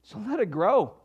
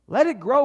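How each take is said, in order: First: Said in the usual way. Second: Exhorting louder take; emphatic repeat. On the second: Shown as a demonstration. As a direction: Let it grow, pushed louder and higher.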